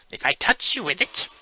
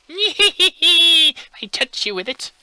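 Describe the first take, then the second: First: High bleating goat voice. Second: Very high, slow, giggling goat bleat. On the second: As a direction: stretch it out, bleating and laughing. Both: Acted. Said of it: "that's my goat impression".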